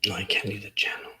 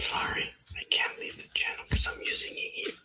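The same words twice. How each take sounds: First: Said in the usual way. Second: Real unvoiced whisper, breathy and hushed. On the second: Real, not acted. Apologising to a friend on the call, in a whisper. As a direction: whisper it as if someone nearby might hear. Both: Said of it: "Why am I whispering?".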